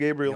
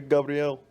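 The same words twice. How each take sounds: First: The name is said the English way. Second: The name is said the Brazilian way.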